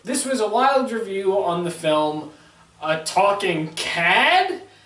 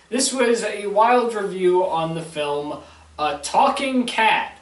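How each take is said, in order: First: The title is said with an exclaiming, questioning tune. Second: The title is said flatly, as a plain statement.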